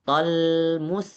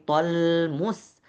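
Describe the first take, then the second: The two takes are said the same way.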